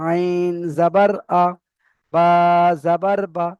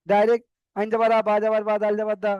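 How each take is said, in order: First: আইন জাবার আ said slowly, each syllable separate; cut apart slowly. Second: আইন জাবার আ run together fast, no breaks; rushed wrong way. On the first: Teacher showing students the right, broken-up spelling. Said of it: "কেটে কেটে বানান করতে হবে". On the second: Teacher showing students the wrong, hurried spelling. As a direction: rush through the spelling as a bad example. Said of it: "বানান করলে ভুল হতে পারে". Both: Shown as a demonstration.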